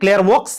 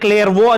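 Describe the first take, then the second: First: The word ends with a sounded x. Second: The word ends without any x sound. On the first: The speaker calls it wrong. "French పదం కాబట్టి క్లేర్వోక్స్ అని ఉంటుంది" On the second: The speaker calls it right. "కానీ క్లేర్వో అని పలకాలి"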